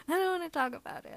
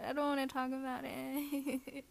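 First: Fast, embarrassed blurt; flustered rush. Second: Softer, shy repeat; quiet retreat. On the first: Embarrassed, fast first take. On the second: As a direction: pull back and say it gently. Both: Acted.

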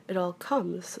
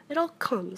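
First: Measured, mildly stern rebuke. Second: Higher-pitched, mildly cross complaint. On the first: Rabbit scolds stuck Pooh for overeating, sternly. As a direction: lay down the blame sternly. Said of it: "said Rabbit sternly". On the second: Stuck Pooh blames Rabbit's front door, crossly. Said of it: "said Pooh crossly". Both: A narrator's reading.

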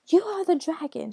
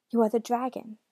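First: High, loud shout; shouted accusation. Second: Said in the usual way. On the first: A narrator's reading. Daughter accusing her father, shouted high and loud. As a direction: shout it as an accusation, pitch raised. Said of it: "she shouted". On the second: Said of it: "she said".

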